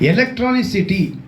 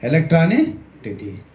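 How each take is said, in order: First: The word has an 's' sound before the end. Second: The word has a 't' sound before the end. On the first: The speaker calls it right. "ಎಲೆಕ್ಟ್ರಾನಿಸಿಟಿ ಅಂತ ನಾವು ಹೇಳಿದ್ವಿ" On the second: The speaker calls it wrong. "ಅವನು ಎಲೆಕ್ಟ್ರಾನಿಕ್ ಟಿಟಿ ಅಂತಾನೆ"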